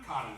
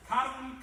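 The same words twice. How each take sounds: First: Dropped repeat. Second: High and loud on the title; announcing song title. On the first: Speaker repeating the song title as it flops. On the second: Speaker announcing the next song title to guests. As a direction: call the song name out brightly. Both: Retold or imitated.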